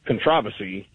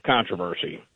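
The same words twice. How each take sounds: First: "controversy" stressed on the second syllable, con-TROV-ersy; British stress on controversy. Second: "controversy" stressed on the first syllable, CON-troversy; American stress on controversy. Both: Shown as a demonstration. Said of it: "put emphasis on the wrong syllable".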